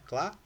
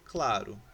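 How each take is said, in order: First: "claro" broken into two syllables, cla, ro; split into syllables. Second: Said in the usual way. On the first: Shown as a demonstration. Teacher showing the class the separated word, "claro" syllable by syllable. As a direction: pause between the syllables of "claro". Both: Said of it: "Separei a palavrinha".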